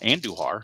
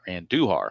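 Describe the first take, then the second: First: The 'u' syllable is not emphasized. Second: The 'u' syllable is emphasized.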